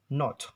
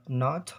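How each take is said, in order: First: "not" with a rounded short o; British pronunciation. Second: "not" as naht, open ah vowel; American pronunciation. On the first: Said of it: "in British". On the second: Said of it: "in America". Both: Shown as a demonstration.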